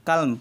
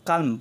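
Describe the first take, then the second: The two takes are said the same way.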